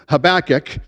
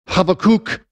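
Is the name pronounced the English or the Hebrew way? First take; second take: English; Hebrew. First: The name is pronounced the usual English way. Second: The name is pronounced the Hebrew way. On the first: "as I pronounce it" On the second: "in the Hebrew"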